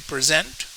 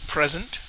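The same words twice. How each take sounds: First: The stress is on the second syllable. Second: The stress is on the first syllable. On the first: It is a verb meaning to offer. "Most two syllable verbs will have the stress on the second syllable" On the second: It is a noun meaning a gift. "Stress on first syllable. Rule. Most second syllable nouns"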